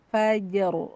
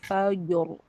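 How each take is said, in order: First: The middle consonant is light and thin. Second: The middle consonant is heavy and dark. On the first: The speaker calls it right. "Jadi jangan sampai jimnya ke bawah tebal" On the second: The speaker calls it wrong. "itu jimnya ke bawah tebal"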